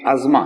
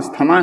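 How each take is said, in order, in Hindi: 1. बीच का हिस्सा 'z' ध्वनि से बोला जाता है। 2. बीच का हिस्सा 's-th' ध्वनि से बोला जाता है। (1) "इसकी प्रोनाउंसिएशन जो है ... अजमा है" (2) "इसको कहते तो हम अस्थमा हैं, लेकिन इसका सही प्रोनाउंसिएशन ये है नहीं"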